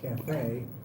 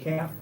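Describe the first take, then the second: First: It uses the speaker's own pronunciation of the word. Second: It uses the British pronunciation of the word. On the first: "we say" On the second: "they say"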